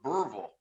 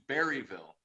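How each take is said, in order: First: The first part sounds like 'burr', two syllables. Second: The first part sounds like 'berry', three syllables. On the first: This is how the locals from Arkansas say it. "they insist, and I think that they're probably right, that it's Burrville" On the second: This is how some other people say it. "how some other people might say it"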